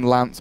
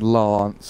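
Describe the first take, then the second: First: Northern English accent with a short hard A. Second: Southern English accent with a long extended A.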